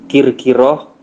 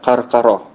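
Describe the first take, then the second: First: The first syllable has the vowel i. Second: The first syllable has the vowel a. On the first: "Bisa dibaca kir-kiroh" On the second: "bisa dibaca karkaroh"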